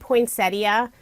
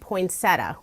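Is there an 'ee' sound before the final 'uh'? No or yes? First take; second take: yes; no. First: The word ends with an 'ee-uh' sound. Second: The word ends with a plain 'uh' sound. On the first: "I pronounce it poinsettia" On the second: "without the ia on the end"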